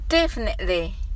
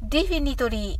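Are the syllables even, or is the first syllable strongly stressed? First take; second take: first stressed; even. First: The first syllable is loud, the rest relaxed. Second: All syllables are said evenly and fully. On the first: The speaker calls it right. "でだけ大きく言って、あとはリラックスして発音してください" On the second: The speaker calls it wrong. "カタカナ読みですとdefinitely"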